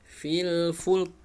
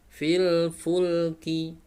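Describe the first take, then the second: First: The phrase ends on a bare final consonant. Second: The phrase ends with a short final vowel. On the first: The reciter stops at this word. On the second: An easier option for practice.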